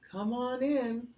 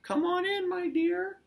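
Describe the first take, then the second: First: Higher-pitched grandma voice; moderately high storybook granny; Grandma welcoming. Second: Very high, loud falsetto granny; exaggerated high mock-granny welcome; wolf pretending Grandma. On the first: A narrator's reading. Grandma answers the door. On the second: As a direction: call out in a fake granny falsetto. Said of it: "he pretended like he was Grandma".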